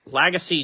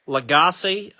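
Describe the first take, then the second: First: Lagasse as LAG-uh-see; Lagasse retried slowly as LAG-uh-see; alternative pronunciation. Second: Lagasse as luh-GAH-see; Lagasse tried as luh-GAH-see, rising at the end; uncertain pronunciation. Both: Real, not acted. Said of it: "not sure how you pronounce his name".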